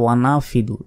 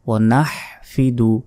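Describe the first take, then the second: First: There is no h sound at all. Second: The h sound is strong from the throat. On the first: The speaker calls it wrong. "হার উচ্চারণই করে না" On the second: The speaker calls it right. "হার উচ্চারণ হবে বড় হা"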